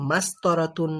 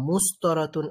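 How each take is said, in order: First: The first vowel is an a sound. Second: The first vowel is a u sound. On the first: "এরকম কিছু বলা যাবে না।" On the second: "এরকম কিছু বলা যাবে না।"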